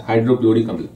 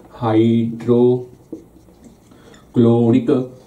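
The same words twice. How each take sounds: First: Said in the usual way. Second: हाइड्रोक्लोरिक stretched very slowly, syllable by syllable; slow dictation of हाइड्रोक्लोरिक; drawn-out syllables. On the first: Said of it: "teacher drills the word". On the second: Shown as a demonstration. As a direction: spell out हाइड्रोक्लोरिक slowly for the class. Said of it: "slow drilled pronunciation".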